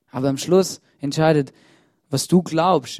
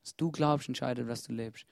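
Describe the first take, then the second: First: Loud. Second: Quiet. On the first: Sermon key line, first take. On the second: Same line repeated, second take. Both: Acted.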